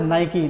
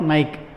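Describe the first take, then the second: First: The word ends with an 'ee' vowel sound. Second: The word ends on a 'k' consonant. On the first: The speaker calls it right. "It is pronounce as नाइकी" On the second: The speaker calls it wrong. "Not नाइक"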